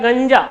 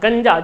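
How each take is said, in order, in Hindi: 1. यह तालव्य "ny" ध्वनि है। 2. यह दंत्य "न" ध्वनि है। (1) "जबकि वह होता है गंजा" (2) "हम अधिकतर इसका जब उच्चारण करेंगे तो न के रूप में करते हैं"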